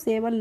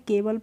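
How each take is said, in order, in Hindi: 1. शब्द की शुरुआत s की आवाज़ से होती है। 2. शब्द की शुरुआत k की आवाज़ से होती है। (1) "हमने इसको सेवल नहीं पढ़ा है" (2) "केवल पढ़ा है"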